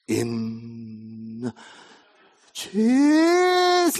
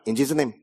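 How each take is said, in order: First: It is said in an exaggerated, dramatic way. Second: It is said in a careless, offhand way.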